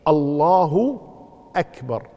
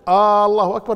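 First: No sound is drawn out beyond normal length. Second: The first vowel of the phrase is drawn out. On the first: The speaker calls it right. "لكن الصحيح الله أكبر" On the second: The speaker calls it wrong. "لكن لو قال مد الألف الله أكبر لا يجوز"

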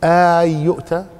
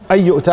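First: The first word starts with a long drawn vowel. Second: The first word starts with a short plain vowel. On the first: It is a reproachful question. "والقراءة الثانية استفهام، ... أو اعتبرها مد" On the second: It is a plain statement. "على ظاهرها كما هي هنا"

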